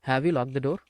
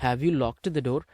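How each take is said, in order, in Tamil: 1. 'Locked' கடைசியில் t ஒலி இல்லாமல் சொல்லப்படுகிறது. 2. 'Locked' d-க்குப் பின் ஒரு உயிரெழுத்து சேர்த்து முடிகிறது. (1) "have you லாக் the door அப்படின்னு பேசுங்க" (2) "அப்படின்லாம் ஒன்றும் பேச வேண்டாம்"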